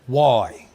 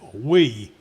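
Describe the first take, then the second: First: The word sounds like 'why'. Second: The word sounds like 'we'. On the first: The speaker calls it wrong. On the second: The speaker calls it right.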